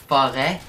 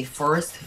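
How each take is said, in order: First: "forêt" said in French, open final vowel; French pronunciation. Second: Said in the usual way. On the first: Shown as a demonstration. Showing viewers the hat accent, French "forêt" with open e. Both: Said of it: "if I say forest".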